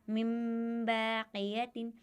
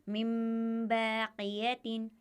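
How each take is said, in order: No difference in how they are said.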